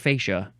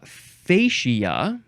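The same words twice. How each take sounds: First: The word is said with two syllables. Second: The word is said with three syllables. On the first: "I've also heard just just two syllables" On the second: "now you can pronounce this a few ways"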